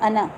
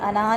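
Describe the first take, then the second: First: The first vowel is kept short. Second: The first vowel is drawn out long. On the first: The speaker calls it right. "बल्कि क्या बोलेंगे" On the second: The speaker calls it wrong. "इसको हम लंबा नहीं करते, अना नहीं कहते"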